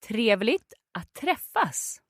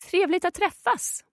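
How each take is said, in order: First: It is said slowly. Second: It is said fast.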